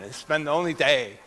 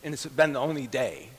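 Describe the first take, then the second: First: "only" hit firmly, falling; It's been the ONLY day; stress on only. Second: Said in the usual way. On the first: Shown as a demonstration.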